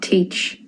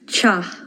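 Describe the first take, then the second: First: It sounds like English 'teach'. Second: It sounds like 'cha', the Irish reading. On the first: The speaker calls it wrong. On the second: The speaker calls it right.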